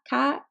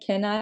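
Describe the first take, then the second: First: The n sound in 'can' is dropped entirely. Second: The n sound in 'can' is fully pronounced. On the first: "I would like drop the N and then like add the I" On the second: "instead of saying can I"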